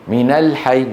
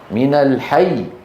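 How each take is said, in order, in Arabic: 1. يُنطق الحرف المضعف الأخير بخفة، دون ضغط. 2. يُنطق الحرف المضعف الأخير بضغط وتشديد. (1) "ولا نقول من الحي" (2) "لا، من الحي"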